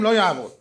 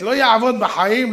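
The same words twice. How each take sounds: First: Said in the usual way. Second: Slow, louder, stress on יעבוד; emphatic. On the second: Real, not acted. Preacher insists the clock is dead, slow emphatic. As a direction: lean hard on יעבוד, drawn out. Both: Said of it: "repeats "won't work".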